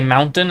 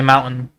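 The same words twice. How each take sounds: First: The middle T sound is pronounced. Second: The middle T sound is dropped.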